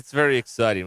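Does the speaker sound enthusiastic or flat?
flat. It is said flatly, without any feeling. It is just a throwaway line.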